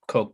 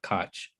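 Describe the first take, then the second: First: The name sounds just like the word 'coke'. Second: The name is said differently from the word 'coke'. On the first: The speaker calls it right. "you pronounce this Coke" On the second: The speaker calls it wrong. "It's not Koch"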